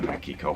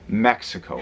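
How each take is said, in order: First: Mexico is said with a Spanish pronunciation. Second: Mexico is said with an English pronunciation. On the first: The speaker calls it right. "Let me say it properly" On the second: The speaker calls it wrong. "not like an idiot"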